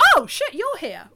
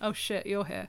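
First: It sounds pleasantly surprised and happy. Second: It sounds dismayed and unhappy. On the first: The person is glad to see someone. The speaker calls it right. "they said it in the right tone of voice" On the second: The person is unhappy to see someone. The speaker calls it wrong. "It wasn't"

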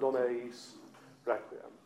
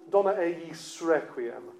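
First: There is a break before the last word. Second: The words run together with no break. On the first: The speaker calls it wrong. "rather than" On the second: The speaker calls it right. "So it just elides perfectly through"

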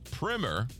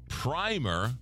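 First: The first vowel is a short 'ih' sound. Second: The first vowel is a long 'eye' sound. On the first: It means a school book. "short I" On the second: It means the first coat of paint. "long I, rhymes with climber"

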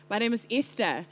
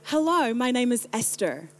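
First: It is said in her English accent. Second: It is said in an American-like accent.

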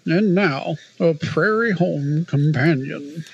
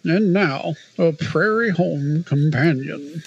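First: It has a strong put-on NPR accent. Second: It has a strong put-on NPR accent.

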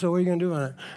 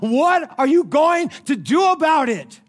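First: It is said calmly and coolly. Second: It is said loudly and excitedly.

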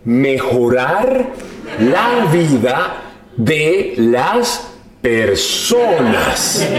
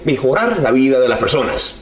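First: The phrase is spoken slowly and deliberately. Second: The phrase is spoken at a normal pace.

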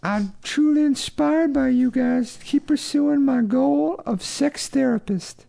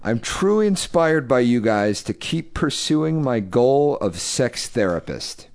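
First: It is read in an exaggerated put-on voice. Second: It is read in a plain, natural voice.

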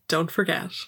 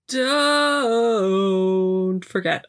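First: It is said in a plain, normal voice. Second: It is said in a put-on, stylized voice.

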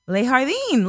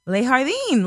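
First: The J is pronounced as an H sound. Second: The J is pronounced as an H sound.

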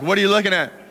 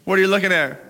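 The two takes are said the same way.

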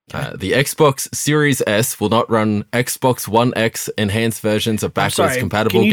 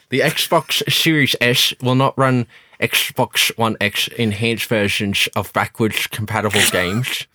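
First: The s sounds are pronounced clearly, without a lisp. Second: The s sounds are pronounced with a lisp.

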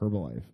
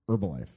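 First: The initial H sound is pronounced. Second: The initial H sound is silent. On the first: The speaker calls it wrong. "no one says Herbalife" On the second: The speaker calls it right. "It's a silent H"

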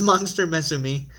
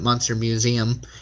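First: The second word sounds like 'meh-zoo-mee'. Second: The second word sounds like English 'museum'. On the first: The speaker calls it right. "It's Monster Mezumi" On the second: The speaker calls it wrong. "I've been pronouncing it Monster Museum. It's not"

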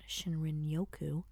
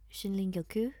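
First: It is pronounced in an American English way. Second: It is pronounced in a Japanese-like way.

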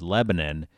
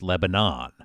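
First: It is said the local New Hampshire town way. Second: It is said the usual way, as for the country. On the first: It names the New Hampshire town. "the towns in New Hampshire are pronounced Lebanon" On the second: It names the country. "the country is pronounced Lebanon"

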